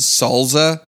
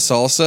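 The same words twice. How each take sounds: First: The second s is sounded like a z. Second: The second s is sounded like an s. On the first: "Dan says salsa" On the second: "instead of salsa"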